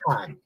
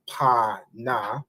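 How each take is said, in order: First: One joined syllable, the final vowel dropped. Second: Two separate syllables, each with its vowel. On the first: The speaker calls it right. "you would join those two letters, and the a drops off the na" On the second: The speaker calls it wrong. "instead of saying pa na"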